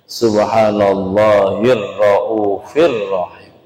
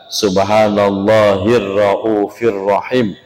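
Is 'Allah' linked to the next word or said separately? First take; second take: linked; linked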